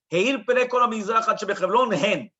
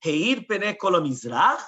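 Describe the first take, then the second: First: Whole phrase run together loudly without a break; "Heir Pnei Kol Mizrach Ad Shebechevron" in one loud sweep; one full statement. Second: "Heir Pnei Kol Mizrach" slowly, rising and left hanging; slow questioning lift at the end of "Mizrach"; half a question. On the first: Shown as a demonstration. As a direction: deliver it as one unbroken, emphatic statement. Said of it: "you're just saying a statement". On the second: Acted. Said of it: "the one that asked the question".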